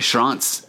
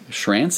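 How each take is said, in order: First: The name is said with a German pronunciation. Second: The name is said with an English pronunciation. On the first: "I want to go all full German on you" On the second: "is the way you say it"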